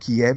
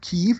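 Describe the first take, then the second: First: The name is said the Russian way. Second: The name is said the Ukrainian way.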